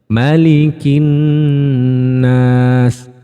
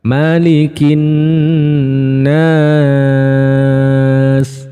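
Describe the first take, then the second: First: The vowel in 'nas' is held shortest. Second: The vowel in 'nas' is held longest. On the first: "itu satu alif" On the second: "kalau yang tiga alif seperti apa?"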